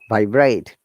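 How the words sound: The pitch goes from low to high. The word is used as a verb. "If it is a verb and that tone is lower tone to upper tone"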